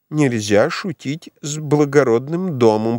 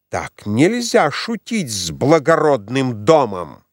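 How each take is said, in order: First: Slow, vague parroting of her words; absent-minded echo. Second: Slow, weighty reproach; stern rebuke. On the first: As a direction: repeat it without thinking. (князь машинально поддакивает) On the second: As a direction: lay down the law to the prince. (мать строго отчитывает князя) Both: A narrator's reading. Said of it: "поддакнул князь бессознательно".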